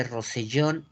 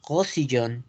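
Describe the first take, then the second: First: Said in the usual way. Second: Rosellón as French "ghosiyón"; French Rosellón, R from the throat. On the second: Shown as a demonstration. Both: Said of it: "la R funge como una G".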